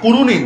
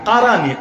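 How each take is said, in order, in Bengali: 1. স্বরধ্বনিগুলো 'উ'-ধ্বনি: kuruni। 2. স্বরধ্বনিগুলো 'আ'-ধ্বনি: karani। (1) "কুরুনি না"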